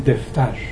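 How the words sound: The word has a changed Torbati first vowel.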